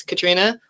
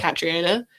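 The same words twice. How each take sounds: First: Katrina in three syllables, stressed on "tri"; Katrina, with "tri" as one long "tree"; first pronunciation, Katrina. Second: Catriona with an extra vowel after "tri"; Catriona, the longer form of the name; second pronunciation, Catriona. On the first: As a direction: say Katrina as kuh-TREE-nuh. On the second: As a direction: let "tri" glide into another vowel in Catriona. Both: Shown as a demonstration. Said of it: "my parents would pronounce differently".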